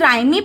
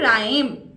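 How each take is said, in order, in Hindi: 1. m के बाद एक अतिरिक्त ee स्वर की ध्वनि आती है। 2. शब्द m पर खत्म होता है, कोई स्वर नहीं। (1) "क्या हम इसे राइमी पढ़ेंगे" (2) "कुछ साउंड्स क्या हो जाती हैं, वो साइलेंट हो जाती हैं"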